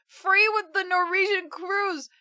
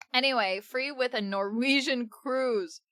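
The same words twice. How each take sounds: First: Higher, amused surprise; surprised reread. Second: Said in the usual way. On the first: Real, not acted. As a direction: reread it, amazed it's a cruise.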